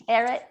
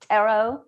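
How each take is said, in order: First: Tarot said as TAIR-it; tarot rhyming with "carrot"; alternative pronunciation. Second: Tarot said as TAIR-oh, rising; tarot with a questioning "oh" ending; alternative pronunciation. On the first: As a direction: end tarot on a short "it". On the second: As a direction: end tarot on an open "oh", no T. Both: Shown as a demonstration. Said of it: "How do you pronounce tarot?".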